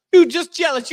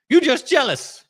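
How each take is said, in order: First: Higher, louder taunt; sing-song teasing jab. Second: Teasing. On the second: Teasing the co-host. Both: Acted.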